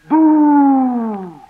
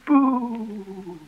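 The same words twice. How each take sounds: First: It is said loudly. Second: It is said gently.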